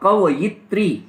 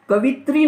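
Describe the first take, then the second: First: It is said kavayitri, with a 'ya' sound. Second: It is said kavitri, without a 'ya' sound. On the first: The speaker calls it right. "कवयित्री ऐसा होता है" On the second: The speaker calls it wrong. "कवित्री नहीं होता"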